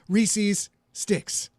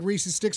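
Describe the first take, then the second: First: Both S sounds between the words are clearly separate. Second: The two S sounds blur into one sound. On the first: The speaker calls it right. "I'm pronouncing it very carefully" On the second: The speaker calls it wrong. "if you don't say it right"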